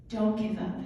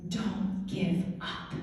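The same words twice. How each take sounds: First: Said in the usual way. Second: Emotional whisper. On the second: Retold or imitated. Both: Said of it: "I was an emotional mess".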